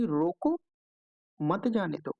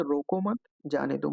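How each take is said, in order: First: "रोको" set apart, clear pause, then "मत जाने दो" together; pause after रोको. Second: "रोको मत" grouped together, short pause, then "जाने दो"; pause after मत. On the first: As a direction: stop after रोको and run "मत जाने दो" as one phrase. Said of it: "ये सेकंड जो दिया हुआ है". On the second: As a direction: break after मत, before "जाने दो". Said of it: "इन दोनों का जो भावार्थ होगा". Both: Shown as a demonstration.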